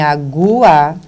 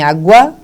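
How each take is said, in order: First: The final vowels are split into two syllables. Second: The final vowels glide together in one syllable. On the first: "você tem o hiato" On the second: "aqui você tem o ditongo crescente"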